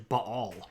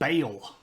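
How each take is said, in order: First: It is said in the original Phoenician way. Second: It is said in the Southern Baptist church way. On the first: The speaker calls it right. "is actually Baal, like that Baal" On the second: The speaker calls it wrong. "If you grew up in a Southern Baptist church, it's pronounced Baal, which is not accurate"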